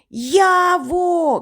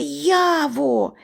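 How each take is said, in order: First: High, drawn-out call; поклик уголос. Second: Mild, higher call for a missing friend; трохи голосніший поклик. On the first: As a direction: call out aloud for a missing friend. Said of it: "кричу вголос". (високий крик уголос) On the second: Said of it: "кричу я трохи голосніше". (трохи голосніше, високий поклик) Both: A narrator's reading.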